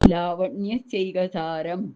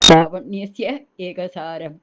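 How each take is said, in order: First: The words are merged into one continuous word. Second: The words are said as two separate words. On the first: "ഇങ്ങനെ തന്നെ വായിക്കാം" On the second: "അത് ബുദ്ധിമുട്ടായിരിക്കും വായിച്ചു പോവാൻ"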